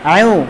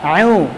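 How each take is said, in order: Both takes have the same delivery.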